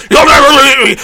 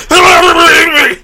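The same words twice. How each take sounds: First: Yelled, high and loud; boomer villain shout. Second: Even higher ranting yell; boomer villain shout. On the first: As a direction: scream it at the enemy. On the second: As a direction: scream it again, harder. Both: Pretend. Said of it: "did you like my boomer impression".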